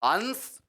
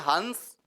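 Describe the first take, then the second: First: The nasal is a full, forceful consonant. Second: The nasal is a full, forceful consonant.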